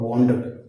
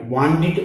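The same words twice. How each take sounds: First: The ending sounds like 'ed'. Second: The ending sounds like 'id'. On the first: "Both are correct" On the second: "want it or wanted"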